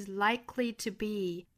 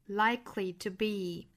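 The two takes are said the same way.

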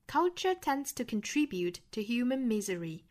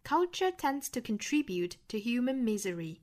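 First: It is spoken in a British accent. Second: The same.

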